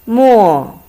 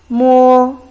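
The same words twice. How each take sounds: First: It is said with the fourth tone. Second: It is said with the first tone. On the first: It means ink. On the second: It means touch.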